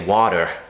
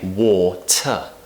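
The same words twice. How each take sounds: First: The T is tapped, like a soft D. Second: The T is a crisp, clear T. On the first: "We don't say water like an American" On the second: "we say"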